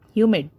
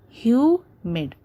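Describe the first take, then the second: First: Said in the usual way. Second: "Humid" with hu drawn out, mid quick; stress on first syllable. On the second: Shown as a demonstration. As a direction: lean on hu in "Humid", then pause. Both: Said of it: "hue is being stressed more".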